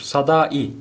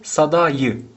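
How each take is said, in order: First: The final vowels are joined without a y sound. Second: A y sound links the final vowels. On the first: The speaker calls it wrong. "Sadai değil" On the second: The speaker calls it right. "de sadayı"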